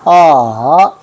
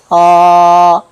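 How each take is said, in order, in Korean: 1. 음높이가 떨어졌다가 다시 올라가요. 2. 음높이가 처음부터 끝까지 높고 평평하게 유지돼요. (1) "내려갔다가 다시 올라가는" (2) "끝까지 평평하게 가야 됩니다"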